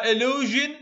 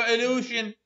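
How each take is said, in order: First: Slow, careful illusion with a voiced zh; zh sound. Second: Illusion with a voiceless sh, as in shoe; slow illusion with a sh instead of zh; sh sound. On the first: Teacher reading the correct choice to the class, slow. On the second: Teacher reading the wrong option to the class, slow. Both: Shown as a demonstration. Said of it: "إذن صوت الجي الأول".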